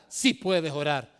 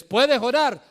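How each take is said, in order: First: Lower, slower calm affirmation; reassuring answer. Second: High, loud challenging question; rhetorical question. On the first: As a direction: settle it gently. Answers own question. ("Sí puedes orar" más grave y lento, tranquilizador) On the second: Rhetorical question then answer. ("¿puedes orar?" preguntado alto y fuerte) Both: Acted.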